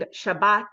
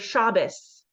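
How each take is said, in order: First: The word ends with a t sound. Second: The word ends with an s sound. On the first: "instead of saying Shabbat" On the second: "Shabbos with an S sound"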